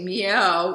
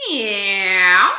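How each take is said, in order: First: Said in the usual way. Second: Very loud, twangy cat voice; cat meow. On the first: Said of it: "in your speaking voice". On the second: Shown as a demonstration. Coach demonstrating twang to singers, cat meow. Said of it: "So meow like a cat".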